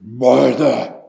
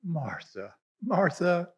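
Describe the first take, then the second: First: Sharp, louder single "Martha."; Jesus rebuking Martha with a loud "Martha."; harsh scolding. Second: Much softer, tender "Martha, Martha."; Jesus answering Martha softly and lovingly; loving reply. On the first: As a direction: bark the name "Martha." as a rebuke. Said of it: "He didn't just". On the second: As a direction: say "Martha, Martha." gently with love. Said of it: "he said / I read this as a loving reply". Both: Shown as a demonstration.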